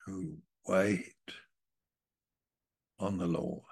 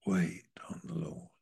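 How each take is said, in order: First: Said in the usual way. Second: Hushed, reverent whisper of "wait on the Lord". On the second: Acted. Preacher echoing the verse to the congregation in a whisper.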